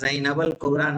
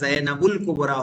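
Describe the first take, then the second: First: The vowel after Zainab is an 'a' sound. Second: The vowel after Zainab is a 'u' sound. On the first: The speaker calls it wrong. "ज़ैनबल कुबरा नहीं होगा" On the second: The speaker calls it right. "ज़ैनबुल कुबरा होगा"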